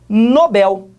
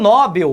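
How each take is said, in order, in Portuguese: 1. A tônica cai na última sílaba. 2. A tônica cai na primeira sílaba. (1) "A última sílaba é que é a mais forte" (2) "muita gente fala que é o prêmio Nobel"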